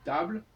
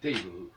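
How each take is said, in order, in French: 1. Il est prononcé à la française. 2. Il est prononcé à l'anglaise. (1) "le français, le, l'emprunt table" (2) "en anglais ... devient table"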